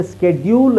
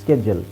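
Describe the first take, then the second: First: ಸ್ಕೆಡ್ಯೂಲ್ with a long "dyool"; spelling pronunciation. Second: ಸ್ಕೆಡ್ಯೂಲ್ ending in a short "jul"; J-sound pronunciation. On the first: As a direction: say ಸ್ಕೆಡ್ಯೂಲ್ as "sked-yool". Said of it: "ಅಂತ ಹೇಳ್ತಾರೆ". (ಸ್ಕೆಡ್ಯೂಲ್ - ಡ್ಯೂ ಎಳೆದು) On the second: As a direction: say ಸ್ಕೆಡ್ಯೂಲ್ as "skej-ul", lower. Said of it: "ಅದು ಸರಿಯಾದ ಉಚ್ಚಾರಣೆ". (ಸ್ಕೆಡ್ಯೂಲ್ - ಸ್ಕೆಜಲ್ ಎಂದು) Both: Shown as a demonstration.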